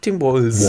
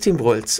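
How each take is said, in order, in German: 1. Das s in dem Namen ist stimmhaft. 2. Das s in dem Namen ist stimmlos. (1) "aber für dich musst du Tim Walz" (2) "Für mich als Schwabe ist das sowieso egal. Wir kennen ja kein, also Schwaben kennen kein stimmhaftes S"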